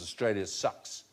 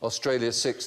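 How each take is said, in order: First: The vowel in six is centralised, like 'u'. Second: The vowel in six is a clear 'i' sound.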